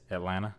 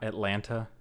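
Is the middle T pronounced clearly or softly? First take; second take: softly; clearly. First: The middle T is soft or dropped. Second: The middle T is pronounced clearly and hard. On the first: The speaker calls it right. "you don't really pronounce the the T hard" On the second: The speaker calls it wrong. "It's not Atlanta"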